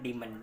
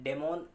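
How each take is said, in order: First: The first vowel sounds like the vowel in 'see'. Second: The first vowel sounds like the vowel in 'day'.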